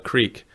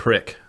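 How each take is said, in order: First: The word is said in a standard pronunciation. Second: The word is said in a Kansas pronunciation.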